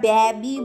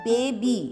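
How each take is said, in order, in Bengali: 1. প্রথম স্বরধ্বনিটি একটি হ্রস্ব 'a' ধ্বনি। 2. প্রথম স্বরধ্বনিটি একটি দীর্ঘ 'ay' ধ্বনি।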